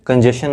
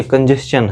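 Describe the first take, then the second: First: कंजेशन said as kan-je-shan, the common mistake; wrong "shan" ending. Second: कंजेशन said as kan-jest-chan; correct "stchan" ending. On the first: Teacher showing students the wrong reading, kanjeshan. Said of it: "कंजेशन नहीं है". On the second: Teacher giving students the correct reading, kanjest-chan. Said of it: "कंजेशन है". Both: Shown as a demonstration.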